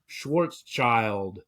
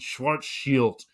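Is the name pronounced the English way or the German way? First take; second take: English; German. First: The name is pronounced with English sounds. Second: The name is pronounced with German sounds. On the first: "the anglicized version would be Schwarzschild" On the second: "I'm using the German pronunciation"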